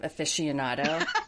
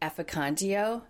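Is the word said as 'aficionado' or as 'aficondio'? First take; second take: aficionado; aficondio. First: It is said in full, as aficionado. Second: It is said with syllables dropped, as aficondio. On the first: The speaker calls it right. "instead of aficionado" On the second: The speaker calls it wrong. "I was known to say years ago"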